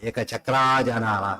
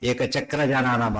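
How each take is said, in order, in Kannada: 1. ekachakra ಪದದ ಕೊನೆಯ ಸ್ವರ ದೀರ್ಘ. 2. ekachakra ಪದದ ಕೊನೆಯ ಸ್ವರ ಹ್ರಸ್ವ.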